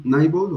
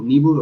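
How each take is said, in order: First: NIBBLE said as "NAI-bol", raised in pitch; English long-i pronunciation. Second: NIBBLE said as "NEE-bol"; alternative short-i pronunciation. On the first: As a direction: say "nibble" starting like "nigh". («nibble» pronunciado «náibol») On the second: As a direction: offer "nibble" with an ee sound first. («nibble» pronunciado «níbol») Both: Shown as a demonstration. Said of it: "o como se pronuncia".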